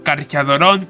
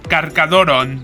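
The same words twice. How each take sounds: First: The 'ch' is said like 'ch' in 'church'. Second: The 'ch' is said as a hard 'k' sound. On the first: The speaker calls it wrong. "leerlo como Carcharodon es la forma incorrecta" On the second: The speaker calls it right. "con las C solas, es decir, se elimina el H y sonaría así"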